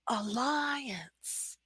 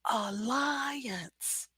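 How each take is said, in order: First: The middle vowels are joined smoothly with a glide. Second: The middle vowels are joined smoothly with a glide.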